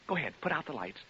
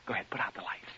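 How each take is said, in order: First: Said in the usual way. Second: Softer whispered repeat of the line. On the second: Acted. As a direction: hush it to the listeners in the dark.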